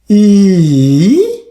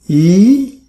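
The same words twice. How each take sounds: First: The pitch dips low, then rises again. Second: The pitch rises from middle to high. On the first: "Third tone" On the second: "Second tone, E, E is mm, going up"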